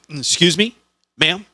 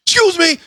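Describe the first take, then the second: First: Polite attempt to rouse. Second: Very high, loud sudden yelp; startling wake-up yell. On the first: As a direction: clear throat, then a raised, polite call. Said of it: "how do I wake her without startling her". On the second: Retold or imitated. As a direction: shriek it to jolt her awake. Waking a passed-out drunk passenger.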